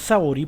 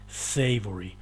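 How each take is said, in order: First: The word is pronounced with Spanish sounds. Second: The word is pronounced with English sounds. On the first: It refers to a local ice cream brand. The speaker calls it wrong. "la gente la pronuncia savory porque la castellaniza" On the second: It is the English word for tasty. The speaker calls it right. "Esa es la forma en que pronunciamos la palabra"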